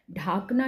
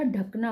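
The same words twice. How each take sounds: First: ढाकना with a long आ in ढा; wrong long vowel. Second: ढकना with a short अ in ढ; correct short vowel. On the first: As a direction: stretch the first vowel of ढाकना to आ. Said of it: "ढाकना नहीं होता". (ढाकना में 'ढा' लंबा बोलें) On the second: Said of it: "ढकना होता है". (ढकना में 'ढ' छोटा बोलें) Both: Shown as a demonstration.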